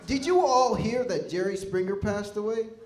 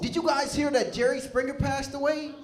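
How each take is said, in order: First: It is said in a somber tone. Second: It is said in an excited tone.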